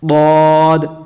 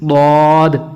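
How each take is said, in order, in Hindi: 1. यह अक्षर जीभ की बग़ल को ऊपर की दाढ़ों से लगाकर बोला जाता है। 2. यह अक्षर जीभ की बग़ल को ऊपर की दाढ़ों से लगाकर बोला जाता है।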